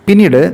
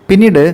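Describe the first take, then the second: No difference in how they are said.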